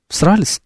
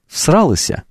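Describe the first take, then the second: First: The word ends in a short 's' sound. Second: The word ends in a full 'sya' syllable. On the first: The speaker calls it wrong. "Вот у меня не получается" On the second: The speaker calls it right. "Вот так"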